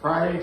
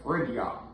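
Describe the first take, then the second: First: The word ends with a 'day' sound. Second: The word ends with a 'dee-uh' sound. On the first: "change the pronunciation of Friday" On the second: "to Fridia"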